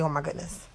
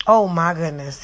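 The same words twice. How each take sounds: First: "Oh my goodness" much softer, just repeating the words; quiet quoted version. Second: "Oh my goodness" said louder, as an exaggerated polite gasp; mock-prim exclamation. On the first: Retold or imitated. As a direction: say it softly, as a side mention. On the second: Shown as a demonstration. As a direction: do the sanitized exclamation a bit big. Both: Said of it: "He told me to say".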